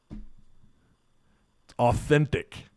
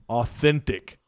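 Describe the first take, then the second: First: "authentic" stretched out very slowly, mock sincere. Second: Said in the usual way. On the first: Shown as a demonstration. Host teasing the coach's accent, "authentic" stretched slowly. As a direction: draw out "authentic" slowly for a wink.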